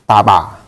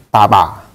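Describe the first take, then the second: First: The consonants sound like a voiceless p. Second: The same.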